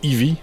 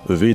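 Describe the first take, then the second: First: The name is read with English letter sounds. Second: The name is read with French letter sounds.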